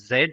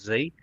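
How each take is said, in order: First: The letter is said the British way, 'zed'. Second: The letter is said the American way, 'zee'.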